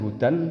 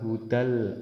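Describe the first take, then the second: First: The final n is clearly pronounced. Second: The final n becomes an l sound. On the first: "Tulisannya hudan" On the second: "nanti dibaca hudal, n-nya hilang"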